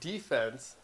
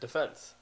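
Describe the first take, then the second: First: It is said the American broadcast way. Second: It is said the Canadian broadcast way. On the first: The speaker calls it right. "instead of defense on E S P N" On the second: The speaker calls it wrong. "on Sportsnet they said defense"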